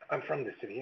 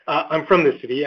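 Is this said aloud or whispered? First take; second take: whispered; aloud. First: The words are whispered softly. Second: The words are spoken aloud. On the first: Only the person next to the speaker is meant to hear. "I'll just whisper to you" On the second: Everyone at the table is meant to hear. "and I'll say it louder"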